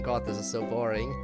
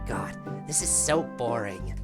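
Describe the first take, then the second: First: It is read in the speaker's ordinary voice. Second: It is said in a put-on, fairly high character voice. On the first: "that first voice line being" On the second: "in a similar vein as Natsuki, just not go as high pitch"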